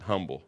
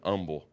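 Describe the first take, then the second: First: The word starts with an h sound. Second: The word starts without an h sound. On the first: "but I pronounce it humble" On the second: "Some people pronounce it humble. I don't know why the H is silent there"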